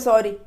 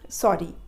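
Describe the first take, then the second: First: It is said in a careless, dismissive tone. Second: It is said in a soft, sincere tone. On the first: The apology is made only for the sake of saying it. The speaker calls it wrong. "ऐसा तो नहीं बोलोगे ना" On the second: The apology is truly felt. The speaker calls it right. "You you should feel"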